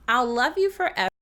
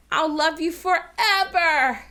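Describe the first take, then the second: First: Said in the usual way. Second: Slow, high, loud plea swelling on "forever"; hammed-up weight on "forever"; stress on FOREVER. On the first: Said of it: "And I'll read it". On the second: Shown as a demonstration. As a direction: belt out "forever" dramatically. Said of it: "what words you think I'm really accenting".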